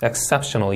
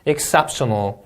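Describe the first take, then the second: First: "exceptional" stressed on cep, falling; second-syllable stress, softer. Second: "exceptional" stressed on cep; second-syllable stress. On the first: Teacher repeating the stressed word softly. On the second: Teacher modelling exceptional's stress. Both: Shown as a demonstration. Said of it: "이음절 강세".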